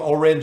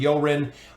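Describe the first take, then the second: First: The name begins with a plain vowel sound. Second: The name begins with a y sound. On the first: "with the silent E" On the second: "with the E O"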